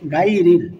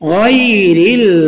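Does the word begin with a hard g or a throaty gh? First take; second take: hard g; throaty gh. First: The word begins with a hard g sound. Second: The word begins with a throaty gh sound. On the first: The speaker calls it wrong. "অনেকে ভুল করে বলে গায়রিল" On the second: The speaker calls it right. "এখানে হবে গায়রিল মাগদুবি, এটাও গায়ন"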